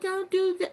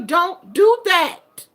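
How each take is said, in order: First: It is said softly and gently. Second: It is said sternly in a deep voice. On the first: The child can get away with it. The speaker calls it wrong. "instead of, no, baby, don't do that" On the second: The parent is serious about it. The speaker calls it right. "put some bass in your voice"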